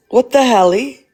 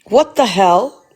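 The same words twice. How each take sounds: First: Mock-cute "helly" with a lilting rise; playful cutesy twist. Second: Said in the usual way. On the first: Shown as a demonstration. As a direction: turn the swear into a silly baby word. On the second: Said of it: "What the helly?".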